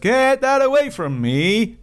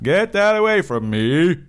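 First: It is said in a higher impression voice. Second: It is said in a deeper impression voice.

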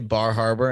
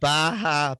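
First: It is said with the r sounds pronounced. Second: It is said in a Boston accent, without r sounds.

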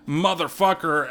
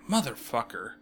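First: It is screamed loudly and with anger. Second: It is said flatly and quietly, without anger.

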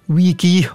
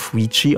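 First: The word is pronounced without an Italian style. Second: The word is pronounced in an Italian style.

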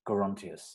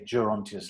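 First: The name starts with a hard G sound. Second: The name starts with a soft G sound. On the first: "Elgar said it should have a hard G" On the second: "like Gerald"

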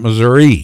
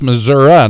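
First: It is said a fancier, put-on way. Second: It is said the plain local way. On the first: Saying it this way is putting on airs. The speaker calls it wrong. "not Missouri" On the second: This is how people from the state say it. The speaker calls it right. "You heard this the way he said it. It's Missouri"

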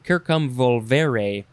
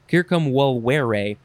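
First: The v is said as a V sound. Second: The v is not said as a V sound. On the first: "if we say the V sound, it would be" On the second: "but I think they say"

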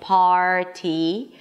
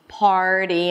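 First: The middle consonant is a crisp T. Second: The middle consonant is a soft D-like tap. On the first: The speaker calls it wrong. "I'm not saying party" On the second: The speaker calls it right. "It's a flat T. So it actually sounds like a D sound"

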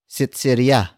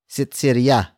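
Both takes have the same delivery.

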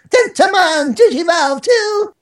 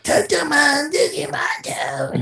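First: The character voice is full and energetic. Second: The character voice is strained and tired.

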